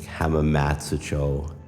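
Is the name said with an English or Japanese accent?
English. It is said with English-style vowel sounds. The speaker calls it wrong. "instead of like saying like"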